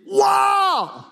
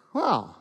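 First: Amazed wow. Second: Flat disappointed wow. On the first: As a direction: gasp it out in awe. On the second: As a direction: let the wow sink in letdown. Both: Shown as a demonstration. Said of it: "Or would he be like".

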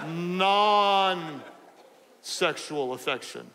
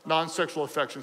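First: "non-sexual affection" with NON drawn right out; real slow. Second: Said in the usual way. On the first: Shown as a demonstration. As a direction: spell it out very slowly, stretching "non", pause before finishing. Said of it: "so I'm gonna say it real slowly". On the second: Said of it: "I'm gonna say it real slowly".

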